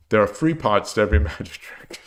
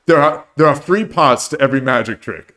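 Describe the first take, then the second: First: "three" said as "free", th turned into an f, British style. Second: Put-on a barely-there British Michael Caine accent; Michael Caine impression. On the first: Shown as a demonstration. Host demonstrating British th, "three" said as "free". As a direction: redo the line saying "three" as "free", British f for th, softly laughing. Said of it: "to pronounce T H as F". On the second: Host quoting The Prestige, faint Michael Caine British accent. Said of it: "the worst Michael Caine impression you'll ever hear".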